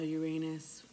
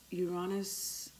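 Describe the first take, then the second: First: "Uranus" as yoo-RAY-nus. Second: "Uranus" as yoo-RAH-nus. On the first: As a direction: say "Uranus" with AY as in rain. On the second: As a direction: say "Uranus" with a long AH in the middle. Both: Shown as a demonstration. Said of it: "I pronounce it Uranus".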